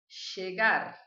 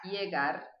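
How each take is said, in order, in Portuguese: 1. O ll é pronunciado com sotaque argentino. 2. O ll é pronunciado como um som de i. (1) "da Argentina e do Uruguai" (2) "essa seria a pronúncia que eu adoto"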